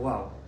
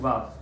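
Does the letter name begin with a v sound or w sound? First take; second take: w sound; v sound. First: The word begins with a w sound. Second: The word begins with a v sound. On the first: "They do wow" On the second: This is the common pronunciation today. "They don't do Vav"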